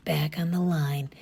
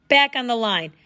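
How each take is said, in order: First: Soft voiceless whisper. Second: Bark. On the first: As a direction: lean in and whisper it. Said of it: "almost as if he were whispering". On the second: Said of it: "he barked". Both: Acted.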